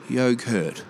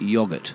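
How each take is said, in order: First: It is said with an Australian pronunciation. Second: It is said with a British pronunciation. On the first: The speaker calls it right. "That's the name" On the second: The speaker calls it wrong. "Not yogurt"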